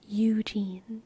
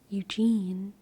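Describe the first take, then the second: First: Both syllables are fully pronounced and stressed. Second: The second syllable is stressed, the first unstressed. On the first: "A spondee is a po- is a poetic foot where both both the first and last syllable are fully pronounced and emphasized" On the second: "Eugene is actually an I am, which is un unemphasized followed by emphasized"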